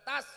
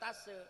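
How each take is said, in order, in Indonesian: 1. Bunyi s diucapkan tanpa vokal sesudahnya. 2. Ada vokal tambahan setelah bunyi s. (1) "tas bukan tase" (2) "Jangan tase, awas"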